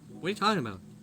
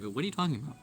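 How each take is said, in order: First: It is said in his normal voice. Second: It is said in a put-on straight man voice.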